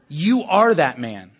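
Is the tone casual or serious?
serious. It is said as a serious accusation.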